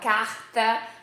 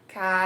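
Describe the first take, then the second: First: The r is said the Rio Portuguese way. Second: The r is said the Italian way.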